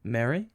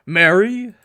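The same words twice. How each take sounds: First: A faint, soft, choked try at Mary?; Mary? barely gets out through the phlegm; blocked throat, the call dies. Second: Mary? called out higher and louder after clearing the throat; Mary? rings out, the throat now clear; husband finally calling his wife's name, loud. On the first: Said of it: "I try to call out, but phlegm blocks my throat". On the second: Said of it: "once more attempt to voice her name". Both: Acted.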